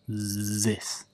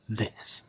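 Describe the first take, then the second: First: The first sound is not a clear th. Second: The first sound is a clear th. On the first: The speaker calls it wrong. "often I will hear it starts to sound like that" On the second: The speaker calls it right. "I want you each time with your tongue, th"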